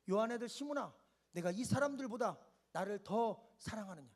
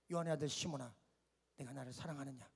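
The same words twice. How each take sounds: First: Said in the usual way. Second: Much lower, very soft tender question; soft, low, loving voice of Jesus. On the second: Acted. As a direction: hush it down to a gentle ask.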